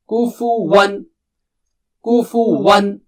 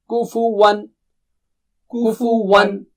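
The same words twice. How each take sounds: Both takes have the same delivery.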